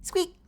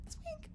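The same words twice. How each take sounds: First: Said in the usual way. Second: Tiny high squeak. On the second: Shown as a demonstration.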